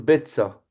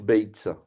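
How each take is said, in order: First: The first vowel is a plain e sound. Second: The first vowel is an ei diphthong. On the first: The silent letter is not pronounced. "le yod, normalement, se prononce pas. Et on va dire betza" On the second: The silent letter is pronounced. "il y en a qui vont dire beitza"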